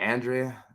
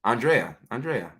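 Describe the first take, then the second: First: Andrea as ann-DRAY-uh; varying pronunciation. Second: Andrea as ahn-DRAY-uh; corrected pronunciation. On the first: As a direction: try "Andrea" starting with a flat "Ann", then DRAY. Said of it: "I have a different pronunciation each time". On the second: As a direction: say "Andrea" with an open "ah" start, then DRAY. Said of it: "All right, I got it". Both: Real, not acted.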